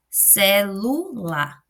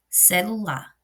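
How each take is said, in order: First: "celular" slowly broken up, ce... LU... lar; stress on middle syllable. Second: Said in the usual way. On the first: Shown as a demonstration. Teacher demonstrates the tonic syllable, "celular" with emphatic "lu". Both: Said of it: "eu coloco mais intensidade na segunda sílaba".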